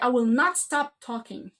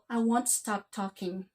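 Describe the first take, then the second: First: It is said intensely, with strong emphasis. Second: It is said relaxed, without emphasis.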